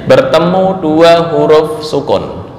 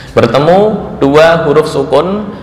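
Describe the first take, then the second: Both takes have the same delivery.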